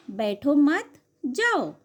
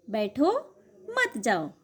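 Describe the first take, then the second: First: "बैठो मत" firm and joined, a break, then "जाओ"; pause after मत. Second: "बैठो" lifted and held, a break, then "मत जाओ" dropping; pause after बैठो. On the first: Teacher contrasts meanings for pupils, pausing between "बैठो मत" and "जाओ". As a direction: say बैठो मत in one go, pause, give जाओ by itself. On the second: Teacher contrasts meanings for pupils, pausing between "बैठो" and "मत जाओ". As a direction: hang on a rising बैठो, pause, then join मत जाओ low. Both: Shown as a demonstration. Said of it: "बोलते समय अलग-अलग जगह रुकने से".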